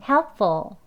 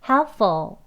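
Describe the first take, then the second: The two takes are said the same way.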